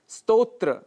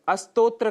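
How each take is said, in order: First: The word begins directly with the consonant cluster. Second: An extra vowel is added before the cluster. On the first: The speaker calls it right. "स्तोत्र के स्थान पर" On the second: The speaker calls it wrong. "जो कि दोष माना गया है"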